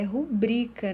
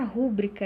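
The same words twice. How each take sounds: First: "rubrica" stressed on BRI; penultimate stress. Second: "rúbrica" stressed on RÚ, the first syllable; wrong early stress. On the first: Teacher correcting students, "rubrica" stressed on BRI. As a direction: lean on the middle syllable BRI of "rubrica". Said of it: "é uma palavra paroxítona". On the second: Teacher rejecting the error, "rúbrica" stressed on RÚ. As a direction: punch RÚ in "rúbrica". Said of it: "não é a rúbrica". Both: Shown as a demonstration.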